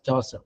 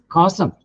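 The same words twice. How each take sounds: First: "Chaucer" for chasm, starting with ch as in chair; wrong "Chaucer", said like "chaw-sum"; mispronounced chasm. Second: "cosm" starting with a k sound; correct pronunciation. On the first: Retold or imitated. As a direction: retell the slip "Chaucer", a soft ch opening. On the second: Shown as a demonstration. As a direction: say "cosm" for chasm, ch as in choir. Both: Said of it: "ka, not cha".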